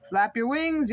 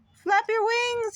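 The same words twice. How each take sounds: First: Mild yell. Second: High, slow yell. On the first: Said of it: "yelled Mister Bird". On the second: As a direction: yell up at him to flap. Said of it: "yelled Missus Bird". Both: A narrator's reading.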